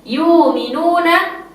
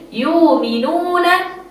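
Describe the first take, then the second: The two takes are said the same way.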